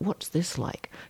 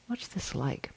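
First: It is asked tightly, with serious effort. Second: It is asked softly, with gentle curiosity. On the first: Trying to figure oneself out and fix it. The speaker calls it wrong. "But not what's this like" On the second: Open curiosity about the experience. The speaker calls it right. "There's sweetness in this"

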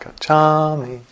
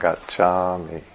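First: It is said with an American East Coast accent. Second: It is said with a Pali-style pronunciation. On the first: The speaker calls it wrong. "not Gacchami. East Coast accent" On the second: The speaker calls it right. "do as the Bariites do"

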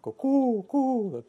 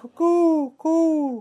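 First: The hoot is in a deeper tone. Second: The hoot is in a higher tone.

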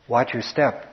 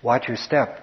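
First: It is said in a gentle, caring way. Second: The same.

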